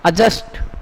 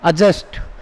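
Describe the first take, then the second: Both takes have the same delivery.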